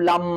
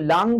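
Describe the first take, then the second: First: The word ends in a closed 'm' sound. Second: The word ends in a nasal 'ng' sound. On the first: "কেউ ম বলছে" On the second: "অনুস্বার কেউ বলছে"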